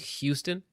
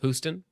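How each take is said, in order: First: The first syllable sounds like 'hue'. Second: The first syllable does not sound like 'hue'. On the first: "Like they say H U E" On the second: "instead of Houston"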